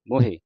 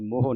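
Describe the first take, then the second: First: The word ends with a final e vowel. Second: The word ends on a bare h sound. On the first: The speaker calls it right. "ਮੰਮੇ ਔਂਕੜ ਹਾਏ ਸਿਆਰੀ ਮੋਹੇ" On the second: The speaker calls it wrong. "ਮੋਹ ਨਹੀਂ ਕਹਿ ਦੇਣਾ"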